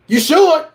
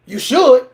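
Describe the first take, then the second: No difference in how they are said.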